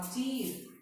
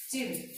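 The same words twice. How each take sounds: First: चीर with ee held long. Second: चिर with a brief i; short i. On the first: Teacher giving another example, चीर with long ee. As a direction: draw out the ee in चीर. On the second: Teacher giving another example, चिर with short i. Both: Shown as a demonstration. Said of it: "दोनों के उच्चारण में फर्क नजर आया".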